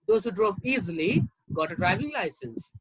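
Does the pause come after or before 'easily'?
after. The break comes after the word easily. Only people who drove without problems got licenses. "only those who drove easily"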